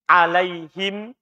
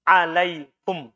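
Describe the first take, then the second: First: The vowel before the final m is i. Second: The vowel before the final m is u. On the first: This is the reading found in the common printed Quran. "Boleh dibaca alaihim itu yang ada di kita" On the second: This is a permitted reading absent from common copies. "boleh di dhammah"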